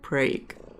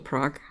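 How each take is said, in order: First: The name is said the Americanized local way. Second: The name is said the usual European way. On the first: This is how the local town's name is said. The speaker calls it wrong. "because Murica they insist pronouncing it Prague" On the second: This is the name of the original city. The speaker calls it right. "named after Prague"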